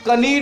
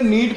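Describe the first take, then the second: First: A k sound is said before the n. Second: The word begins directly with the n sound. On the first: The speaker calls it wrong. "अब इसको कनीड नहीं पढ़ोगे" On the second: The speaker calls it right. "नीड पढ़ोगे"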